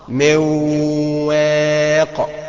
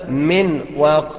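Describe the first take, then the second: First: The n merges into w with nasal hum. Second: The n is pronounced clearly before the w. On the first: The speaker calls it right. "انما الصح مواق" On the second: The speaker calls it wrong. "انك تظهرها من واق خطأ"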